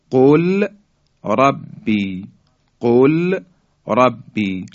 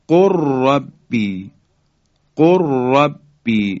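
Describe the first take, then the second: First: قل ربی in two separate words, l sounded, قل raised; unmerged lam. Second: Slow قل ربی as "qurrabbi", long rolled r; lam merged into ra. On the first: Teacher shows the words before merging, lam pronounced separately. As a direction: pause after a clear "qul", then "rabbi". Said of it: "لام ساکن". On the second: Teacher demonstrating the merger, lam lost in a doubled ra. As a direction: drop the l of قل and trill straight into ربی. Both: Shown as a demonstration.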